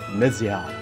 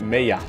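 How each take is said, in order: First: The middle consonant is a z sound. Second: The middle consonant is a soft y sound. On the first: "like a Z" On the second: "the soft pronunciation for, like the implied Y"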